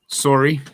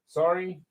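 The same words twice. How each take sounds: First: The word is said in a Canadian accent. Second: The word is said in a plain accent.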